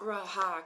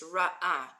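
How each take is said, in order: First: An h sound joins the two vowels. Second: A brief catch separates the two vowels. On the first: The speaker calls it wrong. "it's not raha because there's no hay in there" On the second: The speaker calls it right. "Like there's a, a kind of a space of air"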